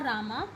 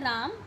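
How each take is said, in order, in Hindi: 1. शब्द दीर्घ स्वर aa पर समाप्त होता है। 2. शब्द व्यंजन m पर समाप्त होता है।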